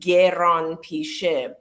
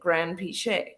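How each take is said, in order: First: The name is pronounced the original Iranian way. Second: The name is pronounced the anglicized English way. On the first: This is the name's original pronunciation. "the actual pronunciation of the last name is" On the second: This is the form adopted for use in English. "we just turned it into Grand Pichet. And that's how you say it"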